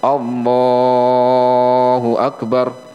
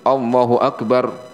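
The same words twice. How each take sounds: First: It is stretched out too long. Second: It is clipped too short.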